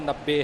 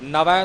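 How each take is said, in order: First: The middle consonant is a doubled b sound. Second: The middle consonant is a v sound. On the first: The speaker calls it right. "नब्बे तो भाव नब्बे है" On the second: The speaker calls it wrong. "नवे नहीं बोलना"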